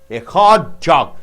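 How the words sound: The stress falls on the word hot. "The center syllable is stressed"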